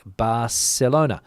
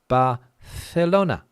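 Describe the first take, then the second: First: The c is said as an s sound. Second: The c is said as a th sound. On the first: This is the pronunciation of parts of the south. "They pronounce the C as a C, like Barcelona" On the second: This is the Castilian pronunciation of mainland Spain. "the C in uh, Castilian Spanish is pronounced like we pronounce in English, th"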